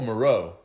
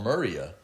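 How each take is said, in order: First: The name is said like 'Moreau'. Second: The name is said like 'Muria'. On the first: The speaker calls it right. "oh, Moreau" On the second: The speaker calls it wrong. "I didn't know how to pronounce it"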